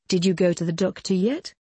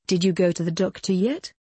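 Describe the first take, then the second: No difference in how they are said.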